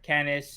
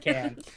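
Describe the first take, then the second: First: The word has a second syllable ending in s. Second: The word ends without any s sound. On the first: The speaker calls it wrong. "or canis" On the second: The speaker calls it right. "you don't see the es. ... it's can"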